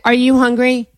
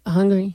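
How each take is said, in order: First: Said in the usual way. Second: Put-on one-word boyfriend. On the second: Boyfriend answering with just one word, dully. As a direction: mumble the bare word back. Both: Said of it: "talks in just words".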